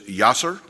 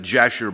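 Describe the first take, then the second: First: The name begins with a Y sound. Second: The name begins with a J sound. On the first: This is the original Hebrew pronunciation. "but it's Yasser. The Hebrews would write it with a Y" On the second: This is the usual English pronunciation. "We would pronounce it Jasher"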